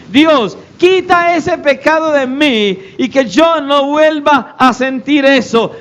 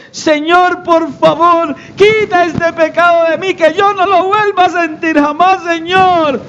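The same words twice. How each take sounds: First: Slow, higher-pitched mock prayer; lightly acted plea to God; praying sinner. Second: High-pitched, overwrought plea to God; mock tearful begging. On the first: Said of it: "la oración que la mayoría de los cristianos le hacen al Señor cuando pecan". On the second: Believer prostrate before the Lord, hammed-up tearful begging. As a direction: beg as if bawling, hammed up. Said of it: "llorando a moco tendido".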